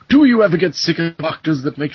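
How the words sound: It is spoken in a posh British accent. "He sounds too posh and British"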